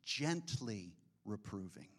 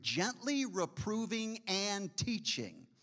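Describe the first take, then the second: First: Gently reproving said soft and low; soft emphasis. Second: Slow, stressed Gently reproving and teaching; slow emphasis. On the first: Preacher softly repeats the Greek phrase. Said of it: "literally is in the Greek". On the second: Preacher stresses the Greek meaning slowly. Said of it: "in the Greek". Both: Acted.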